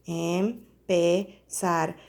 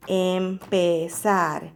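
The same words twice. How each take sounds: First: "Empezar" very slow and soft, em-pe-zar apart; clapped-out syllables. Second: "Empezar" slowly split into em-pe-zar; syllable by syllable. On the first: Teacher clapping syllables of empezar again for kids. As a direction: tap each syllable of "Empezar" slowly. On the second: Teacher counting syllables of empezar for children. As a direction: sound out "Empezar" in three beats. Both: Shown as a demonstration. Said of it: "¿Cuántas sílabas hay en empezar?".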